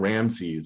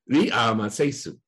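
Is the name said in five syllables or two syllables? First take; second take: two; five. First: The name is said in two short syllables. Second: The name is said in five separate syllables. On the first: This is the usual modern scholarly pronunciation. "that's how an Egyptologist would normally pronounce it" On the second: This is the reconstructed ancient pronunciation. "the pronunciation of Ramses was originally"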